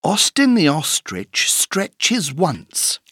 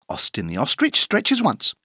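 First: The sentence is said at a slow pace. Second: The sentence is said at a fast pace. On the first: "Écoute bien cette phrase" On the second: "plus vite"

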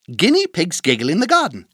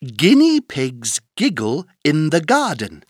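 First: The sentence is spoken at a fast pace. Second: The sentence is spoken at a moderate pace.

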